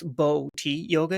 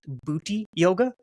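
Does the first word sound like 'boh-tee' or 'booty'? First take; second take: boh-tee; booty. First: The first word is said like 'boh-tee'. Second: The first word is said like 'booty'. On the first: The speaker calls it wrong. "it wasn't pronounced Bo-Ti yoga" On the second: The speaker calls it right. "it was pronounced Booty yoga"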